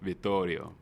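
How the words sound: The name is said with an Italian pronunciation. "in Italy they would say"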